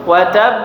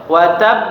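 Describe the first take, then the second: Both takes have the same delivery.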